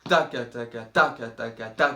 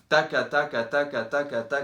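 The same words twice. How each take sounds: First: A strong accent falls every fourth beat. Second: All syllables are equally loud and even. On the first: The speaker calls it wrong. "un gros à-coup tous les quatre temps" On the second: The speaker calls it right. "bien régulier"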